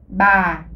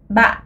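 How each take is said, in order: First: The pitch falls slowly and is drawn out. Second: The pitch falls with a glottal catch. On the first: "C'est le ton euh, descendant, traînant, descendant" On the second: "c'est un ton tombant, glottalisé"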